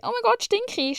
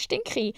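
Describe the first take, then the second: First: Sudden high squeal of alarm; mock panic. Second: Said in the usual way. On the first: Imagining she smells, mock panicked squeal. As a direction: shriek it up high in mock horror. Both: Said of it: "und so bin".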